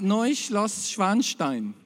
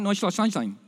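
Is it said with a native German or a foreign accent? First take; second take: native German; foreign. First: It is said with a native German pronunciation. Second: It is said with a foreigner's accent.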